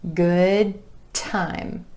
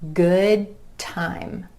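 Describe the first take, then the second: The two takes are said the same way.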